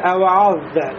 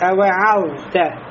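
First: The ayn sound is pronounced heavy and thick. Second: The ayn sound is pronounced light and thin. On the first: The speaker calls it wrong. "все равно хочется произнести" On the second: The speaker calls it right. "надо произнести мураккака"

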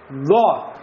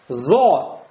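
First: The consonant is a voiced d-like stop. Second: The consonant is a buzzing z-like sound. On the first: The speaker calls it right. "опять придержаться середины, будет «до»" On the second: The speaker calls it wrong. "Если мы оставим слишком большую щель"

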